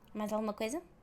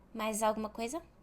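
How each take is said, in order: First: It is fast, with the words run together. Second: It is fast, with the words run together.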